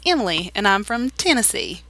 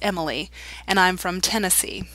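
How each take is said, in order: First: It is said in a Southern Tennessee accent. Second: It is said in a neutral, non-regional accent.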